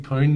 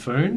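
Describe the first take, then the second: First: The name begins with a P sound. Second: The name begins with an F sound. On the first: The speaker calls it right. "it's meant to be Poon" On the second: The speaker calls it wrong. "not Foon"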